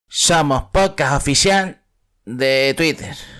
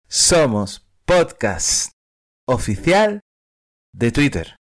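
First: It is said plainly, with little emphasis. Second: It is said with strong emphasis.

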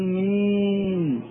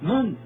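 First: The vowel is drawn out toward a long ee. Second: The vowel is short and said curtly and hard. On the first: The speaker calls it wrong. "لا تقول مين، هذه الإمالة لا وجود لها في لسان العرب" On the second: The speaker calls it right. "لا من قاسية هكذا"

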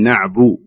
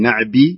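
First: The vowel after the b is a u. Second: The vowel after the b is an i. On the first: The speaker calls it right. "نبغى الثانية" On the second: The speaker calls it wrong. "لا لا تكسر الباء"

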